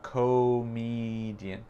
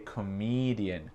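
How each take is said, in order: First: The stress is not on the second syllable. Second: The stress is on the second syllable. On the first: The speaker calls it wrong. "C'est pas comedian" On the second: The speaker calls it right. "l'accent tonique, c'est sur le mi"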